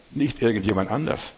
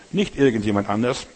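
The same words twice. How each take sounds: The two takes are said the same way.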